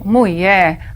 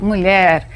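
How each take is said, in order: First: It is said with a rural regional pronunciation. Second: It is said with a standard pronunciation.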